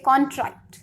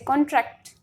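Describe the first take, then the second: First: The stress is on the first syllable. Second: The stress is on the second syllable. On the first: It means a legal agreement. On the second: It means to decrease in size.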